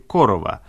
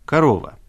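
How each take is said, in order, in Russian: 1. Ударение на первом слоге. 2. Ударение на втором слоге. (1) "выпущен он фирмой «Корова»" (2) "если поменять ударение"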